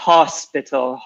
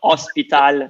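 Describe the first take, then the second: First: The starting h sound is pronounced. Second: The starting h sound is dropped. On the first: The speaker calls it right. "Make sure you pronounce the h" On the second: The speaker calls it wrong. "So not hospital"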